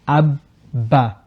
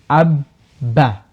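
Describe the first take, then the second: Both takes have the same delivery.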